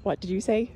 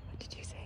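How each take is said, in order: First: Said in the usual way. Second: Soft unvoiced whisper. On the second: Shown as a demonstration. Owner whispering back to her parrot. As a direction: breathe it with no voice. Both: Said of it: "Are you whispering to me?".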